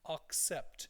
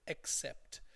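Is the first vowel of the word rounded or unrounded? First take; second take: rounded; unrounded. First: The first vowel is rounded, like an o. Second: The first vowel is unrounded, not like an o. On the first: The speaker calls it wrong. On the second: The speaker calls it right.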